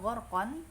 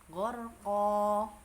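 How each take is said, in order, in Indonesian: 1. Kata ini berakhir dengan bunyi n. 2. Kata ini berakhir dengan vokal a yang dipanjangkan. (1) "bacanya bukan gorkon" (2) "tapi gorko, ko dua harokat ya"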